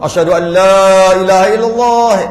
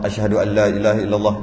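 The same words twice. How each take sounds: First: The phrase is said loudly and strongly. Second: The phrase is said softly and quietly. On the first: "yang kuat pula" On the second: "itu yang perlahan"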